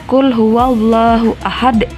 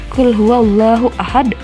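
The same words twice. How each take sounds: The two takes are said the same way.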